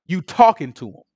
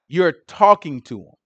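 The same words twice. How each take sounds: First: Said in the usual way. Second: A slow, blunt "talking to him"; flat out. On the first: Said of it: "told this woman right out". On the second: Retold or imitated. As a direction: lay it down flat out, no softening. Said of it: "He told her flat out".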